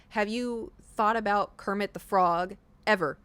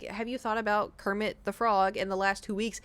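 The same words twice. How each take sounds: First: "Have you thought about Kermit the Frog ever?" read slowly, landing on "ever"; stress on ever. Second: Said in the usual way. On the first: Retold or imitated. Quoting the questionnaire, a slow, pointed read leaning on "ever". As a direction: drag out the question and lean on "ever". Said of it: "It asked". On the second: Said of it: "instead of being like".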